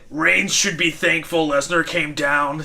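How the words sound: It is said in a put-on imitation voice.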